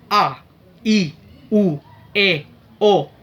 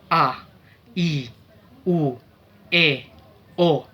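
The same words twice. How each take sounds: First: The vowels are spoken very fast. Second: The vowels are spoken at medium speed. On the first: "dengan kecepatan yang sangat tinggi" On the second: "dengan kecepatan medium"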